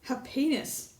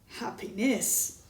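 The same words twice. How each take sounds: First: The stress is on the second syllable. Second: The stress is on the third syllable. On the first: "The second syllable" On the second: "Third syllable"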